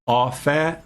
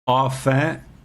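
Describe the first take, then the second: No difference in how they are said.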